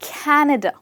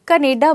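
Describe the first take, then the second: First: It is said in a standard accent. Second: It is said in an Indian accent. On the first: The speaker calls it right. "ऐसे ही आप कहेंगे कनाडा" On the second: The speaker calls it wrong. "India में ज़्यादातर लोग कनेडा बोलते हैं"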